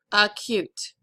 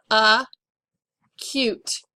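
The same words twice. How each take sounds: First: Said in the usual way. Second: "Acute" broken as UH, long pause, CUTE; "Acute" pulled apart for spelling; syllable by syllable. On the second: Shown as a demonstration. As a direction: dictate "Acute" in two separated syllables. Dictating a word by syllables.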